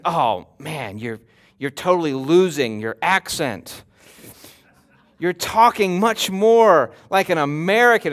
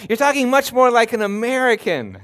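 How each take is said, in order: First: Lower, ribbing voice of a friend back home; a hint of a mocking friend; teasing friend. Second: Said in the usual way. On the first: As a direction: tease them about losing their accent. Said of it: "they're informed by their friends". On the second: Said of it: "It's always, like, negative when they said".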